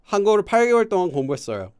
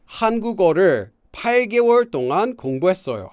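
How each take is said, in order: First: The words are slurred together loosely. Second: Each word is enunciated carefully and separately. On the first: The speaker calls it right. "So I kind of like slur the words together" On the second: The speaker calls it wrong. "I'm just trying to say it as accurately as possible"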